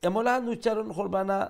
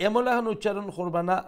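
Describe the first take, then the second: Both takes have the same delivery.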